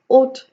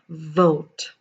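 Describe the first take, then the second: First: The first consonant is not a clear V. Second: The first consonant is a clear V. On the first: The speaker calls it wrong. "It is not ought" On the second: The speaker calls it right. "it is in fact vote"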